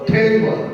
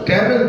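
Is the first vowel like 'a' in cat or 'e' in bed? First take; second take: bed; cat. First: The first vowel sounds like 'e' in bed. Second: The first vowel sounds like 'a' in cat. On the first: The speaker calls it right. "বলবো টেবল" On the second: The speaker calls it wrong. "ট্যাবল বলবো না"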